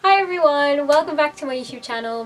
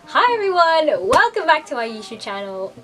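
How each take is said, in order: First: The greeting sounds calmer and less bright. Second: The greeting sounds overly happy and bright.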